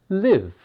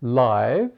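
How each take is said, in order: First: Live said to rhyme with give; live with an ih vowel; short-I reading. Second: Live said to rhyme with five; Live with a long i; long-I reading. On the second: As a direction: say Live with an eye vowel, as in live broadcast. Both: Shown as a demonstration. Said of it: "The spelling is the same".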